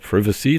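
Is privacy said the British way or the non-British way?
British. The word is said with a British pronunciation.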